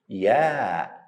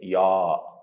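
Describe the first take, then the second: First: The sound is light and thin. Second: The sound is heavy and full. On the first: The speaker calls it right. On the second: The speaker calls it wrong. "Don't say"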